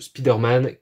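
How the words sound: It is said with a French accent. The speaker calls it wrong. "c'est du franglais un peu, c'est dégueulasse"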